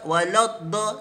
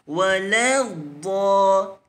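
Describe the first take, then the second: First: The L sound is heavy and thick. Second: The L sound is light and thin. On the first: The speaker calls it wrong. "Jangan ... Salah" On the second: The speaker calls it right. "Yang betul"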